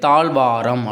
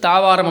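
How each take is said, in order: First: A zh sound comes before the v. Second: No zh sound comes before the v. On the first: The speaker calls it right. "தாழ்வாரம் அப்படிங்கிற மாதிரி வரும்" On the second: The speaker calls it wrong. "தாவாரம் அப்படி கிடையாது"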